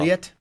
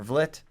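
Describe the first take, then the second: First: Vliet said with a long EE, VLEET; pronunciation demo. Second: Vlit said with a short I; pronunciation demo. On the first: Host showing readings of a surname, Vliet as VLEET. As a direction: say Vliet to rhyme with fleet. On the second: Host showing readings of a surname, Vlit with short I. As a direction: say Vlit to rhyme with slit. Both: Shown as a demonstration. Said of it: "how he goes V L I E T".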